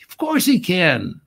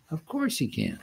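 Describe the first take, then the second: First: Of course HE can, raised and punched on he; emphatic. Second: Of course he can, said much softer, dropping back; softer echo. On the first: Preacher insisting to the congregation, emphatic. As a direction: lean hard on he, lifting the voice. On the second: Preacher echoing his point to the congregation, hushed. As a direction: repeat it under your breath. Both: Shown as a demonstration. Preacher repeats line two ways.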